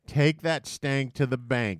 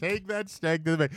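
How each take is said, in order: First: Slow, savoured catchphrase; slow slogan read. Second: Amused slogan echo; repeating the slogan. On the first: Shown as a demonstration. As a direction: say it slowly like an ad tagline. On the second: Retold or imitated. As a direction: try the catchphrase out, amused. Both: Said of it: "should be the marketing campaign".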